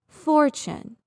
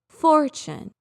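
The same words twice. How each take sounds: No difference in how they are said.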